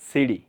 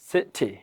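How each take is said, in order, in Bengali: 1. মাঝের ব্যঞ্জনটি নরম d-এর মতো ধ্বনি। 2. মাঝের ব্যঞ্জনটি পরিষ্কার t ধ্বনি। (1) "সিডি আমেরিকানরা করবে" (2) "এটা হচ্ছে সঠিক উচ্চারণ"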